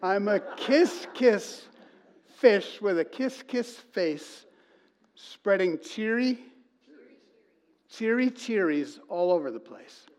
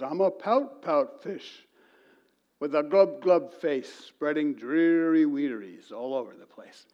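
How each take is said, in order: First: Higher, slow and bright sing-song; cheery kiss fish. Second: Slow, dreary fish chant; gloomy pout fish. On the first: Pastor reciting the happy ending, cheery higher sing-song. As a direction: beam through the rhyme like a delighted fish. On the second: Pastor telling the congregation the book, mopey fish rhyme. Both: Retold or imitated.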